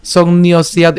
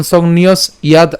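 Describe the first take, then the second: First: "সংন্যস্যাদ" run together, s gliding into ya; joined pronunciation. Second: "সংন্যস ইয়াদ" as two parts, break after s; split pronunciation. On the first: Teacher shows "সংন্যস্যাদ" said together, joined up. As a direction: link "সংন্যস্যাদ" with no break before ya. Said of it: "একসাথে উচ্চারণ করলাম". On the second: Teacher splits "সংন্যস ইয়াদ" for learners, two separate parts. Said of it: "আলাদা উচ্চারণ না করে". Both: Shown as a demonstration.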